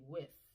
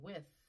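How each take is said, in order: First: The final th is replaced by another sound. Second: The word ends with a clear th sound. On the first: The speaker calls it wrong. "sometimes we will hear people say with" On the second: The speaker calls it right. "emphasizing that digraph at the end"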